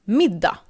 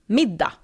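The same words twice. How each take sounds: The two takes are said the same way.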